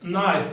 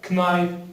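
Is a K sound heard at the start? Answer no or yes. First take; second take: no; yes. First: The word begins with an N sound. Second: The word begins with a K sound. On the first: The speaker calls it right. "We said that the K is silent" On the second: The speaker calls it wrong. "It's not knife"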